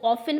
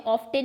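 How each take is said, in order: First: Often said as "offen" with no t sound; often pronounced "offen", the t silent. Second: Often said with a clear t, "off-ten"; often with the t sounded, as students should not say it. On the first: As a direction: say often with the t dropped, "off-en". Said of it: "आप इसको often बोलते हैं". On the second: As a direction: say often pronouncing the t. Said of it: "often नहीं बोलते हैं". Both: Shown as a demonstration.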